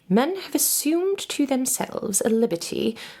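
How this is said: It is read in a put-on British accent.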